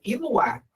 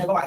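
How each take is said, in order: First: Iluá with an i and a u in place of E and o; Iluá said the way a small child gets the name wrong, i-lu-á; Iluá said like a four-year-old would; childish mispronunciation. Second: Said in the usual way. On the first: Retold or imitated. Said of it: "Ela não fala Eloá, ela fala". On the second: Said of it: "ela fala, é".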